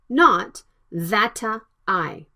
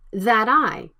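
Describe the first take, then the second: First: The T is a clear, separate stop sound. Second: The T is flapped and linked to the vowel. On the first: The speaker calls it wrong. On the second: The speaker calls it right. "The T sound between vowels, it can be flapped"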